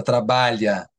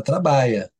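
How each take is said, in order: First: Trabalha with a full lh sound, as in standard Portuguese. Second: Trabalha said trabaia, the lh turned into a y sound. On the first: Explaining the standard form of trabalha to the host, careful lh. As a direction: say trabalha with the palatal lh. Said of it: "você não fala trabalha". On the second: Showing the host how people really say trabalha, lh as y. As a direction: say trabalha as trabaia, folk style. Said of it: "você fala trabalha". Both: Shown as a demonstration.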